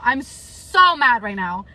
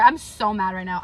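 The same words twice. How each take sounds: First: Mad, drawn out. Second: Said in the usual way. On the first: Real, not acted. Vlogger repeating her anger to viewers, slow and stressed. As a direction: stretch "so" out with pent-up anger.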